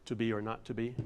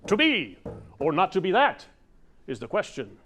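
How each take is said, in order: First: Said in the usual way. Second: "To be or not to be, that" rising high and loud, then a break before "is the question"; odd pause after that. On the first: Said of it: "the first six words of Hamlet's famous soliloquy". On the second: Shown as a demonstration. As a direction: stop hard after "that". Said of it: "if you don't think punctuation matters".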